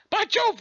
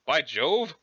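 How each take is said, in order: First: High mock-British exclamation; startled, hammed-up British; Urania Umbra. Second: Said in the usual way. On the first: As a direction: cry out "By Jove" in a high British voice. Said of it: "pretending to be British".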